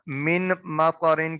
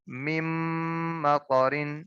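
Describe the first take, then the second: First: The n sound is pronounced before the m. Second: The n sound merges into the following m. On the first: The speaker calls it wrong. "मिन मकरिन की बजाय" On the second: The speaker calls it right. "की बजाय मिम मकरिन"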